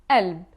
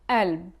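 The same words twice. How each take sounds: Both takes have the same delivery.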